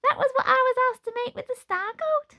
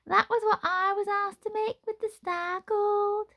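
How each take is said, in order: First: The line is said without a miserable tone. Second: The line is said in a miserable tone. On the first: The speaker calls it wrong. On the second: The speaker calls it right.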